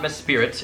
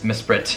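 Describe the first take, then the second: First: The name has an extra vowel, three syllables. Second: The name is said with two syllables. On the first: The speaker calls it wrong. "I just mispronounced Mesprit, it's not Mespirit" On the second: The speaker calls it right. "it's Mesprit"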